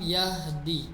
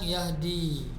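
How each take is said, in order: First: The final vowel is cut short. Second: The final vowel is held long. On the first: The verb is in the jussive mood. "Kalau ada lam jangan dibaca panjang" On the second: The verb is in the indicative mood. "Kalau tidak ada lam bacanya panjang yahdi, kasih mat"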